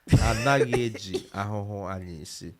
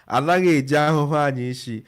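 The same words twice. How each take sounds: First: It is said very slowly. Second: It is said at normal speed.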